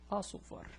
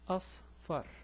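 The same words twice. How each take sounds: First: A vowel separates the s and f sounds. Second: The s and f are joined with no vowel. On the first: It may have no meaning. "these two are independent" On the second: It means yellow. "I have to stop here and join it with this one"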